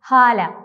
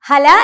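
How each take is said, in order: First: The a vowels are lengthened. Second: The a vowels are short. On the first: The speaker calls it right. "ആ എന്ന ലെറ്ററിനെ കുറച്ചുകൂടി നീട്ടി ഹാല എന്നാണ് ഉച്ചരിക്കേണ്ടത്" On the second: The speaker calls it wrong. "ഹല എന്നല്ല"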